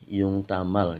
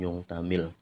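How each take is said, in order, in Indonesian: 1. Vokal terakhir adalah bunyi 'a' terbuka. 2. Vokal terakhir adalah bunyi 'i' tertutup. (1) "Ini yung tamal ya" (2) "bukan yung tamil"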